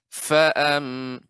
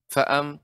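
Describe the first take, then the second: First: The initial f sound is fuller and drawn out. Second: The initial f sound is clipped very short. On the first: The speaker calls it right. "Lebih banyak lagi Ibu pengucapan fa" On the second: The speaker calls it wrong. "enggak fa'am terlalu terlalu eh, singkat begitu"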